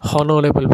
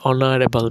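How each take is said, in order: First: It begins with an h sound. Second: It begins with a vowel sound. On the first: The speaker calls it wrong. "এখানে কিন্তু আমরা হনরেবল বলি না" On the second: The speaker calls it right. "An অনারেবল"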